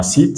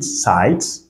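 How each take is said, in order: First: "sit" with a plain French i, no glide; French-like i sound. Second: "site" with i gliding like eye; English I sound. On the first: Teacher contrasts two sounds for learners, "sit" with French-like i. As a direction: say "sit" with one single i vowel. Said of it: "comme si on avait un mot en français". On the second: Teacher contrasts two sounds for learners, "site" with eye vowel. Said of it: "le son en anglais". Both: Shown as a demonstration.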